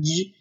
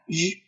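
First: "日" wrongly hardened into a Chinese zh; mispronounced French G. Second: "日" as a soft French zh fricative, no stop; correct French G. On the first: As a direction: say "日" with a stop at the start, as learners wrongly do. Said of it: "切记不要把它读成日". (把“日”错读成带塞音的zh) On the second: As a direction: let "日" buzz continuously like French j. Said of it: "字母G呢发日". (把“日”发成法语G的擦音) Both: Shown as a demonstration.

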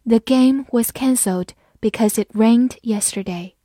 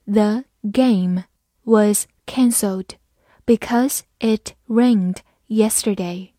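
First: Said in the usual way. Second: Slow, word by word with gaps; slow reading. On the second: Shown as a demonstration. Teacher models the sentence for learners, slow and separated. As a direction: read it slowly for learners, pausing between words. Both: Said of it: "慢慢来读".

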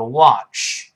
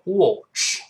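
First: "watch" the American way, wide open mouth; American "watch" with an open ah vowel; American pronunciation. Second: "watch" the British way, rounded o; British "watch" with an o vowel; British pronunciation. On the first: Teacher contrasting accents for learners, American open "watch". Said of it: "美国人口型大一点". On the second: Teacher contrasting accents for learners, British rounded "watch". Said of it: "英国人就". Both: Shown as a demonstration.

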